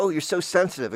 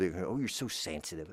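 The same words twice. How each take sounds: First: High sing-song mocking tone. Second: Said in the usual way. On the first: People mocking a sensitive child, high teasing. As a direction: tease it up high and sneering. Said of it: "And they go". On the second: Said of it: "I always was told".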